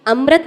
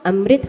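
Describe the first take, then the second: First: अमृत said as "amrat" with a plain a after r; अमृत said wrongly as amrat. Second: अमृत said as "amrit" with an ri sound; अमृत said correctly as amrit. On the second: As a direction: say अमृत with a clear ri. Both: Shown as a demonstration. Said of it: "अमृत होता है".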